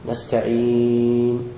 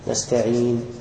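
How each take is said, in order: First: The final long vowel is held moderately long. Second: The final long vowel is held briefly. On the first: "والتوسط" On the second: "بالقصر"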